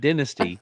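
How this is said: The first syllable sounds like 'din'. The speaker calls it wrong. "not dynasty. It's not dinner"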